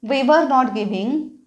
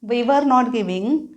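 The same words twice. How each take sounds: Both takes have the same delivery.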